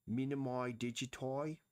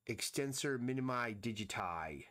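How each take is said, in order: First: "Minimi digiti" with the endings bent to "oy", rising like a question; a clumsy accent on "Minimi digiti", pitched a bit higher; terrible put-on accent. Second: Said in the usual way. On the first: Shown as a demonstration. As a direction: ham up a foreign-sounding accent on "Minimi digiti", badly. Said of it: "That was a terrible attempt at an accent". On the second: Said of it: "That was a terrible attempt".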